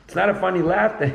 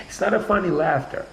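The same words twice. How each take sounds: First: Saying it with a laugh in it; laughing through it. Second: Said in the usual way. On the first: Shown as a demonstration. To the friend about unfunny laughing, laughing while speaking. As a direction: let a laugh break into the words.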